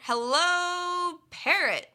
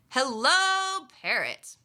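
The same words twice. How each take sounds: First: The stress falls on the word parrot. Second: The stress falls on the word hello. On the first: Seeing the parrot here is unexpected. "we would put the stress on this word, parrot" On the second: The greeting itself is what matters. "I might stress the word hello"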